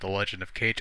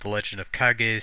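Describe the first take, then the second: First: The last word rhymes with English 'page'. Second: The last word is said as two syllables. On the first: This is a long-held personal habit. "because I've always called it The Legend of Cage" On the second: This is close to the original pronunciation. "since that's the approximate pronunciation"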